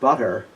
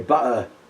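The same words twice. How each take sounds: First: The middle consonant is a clear t sound. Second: The middle consonant is a glottal stop. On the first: "instead of saying butter" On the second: "they say butter. That's Aleph"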